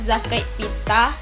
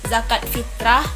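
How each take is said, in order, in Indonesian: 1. Bunyi r pada kata kedua dihilangkan. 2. Bunyi r pada kata kedua tetap ada. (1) "kami nyebutnya zakat fitah" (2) "ada juga kata zakat fitrah"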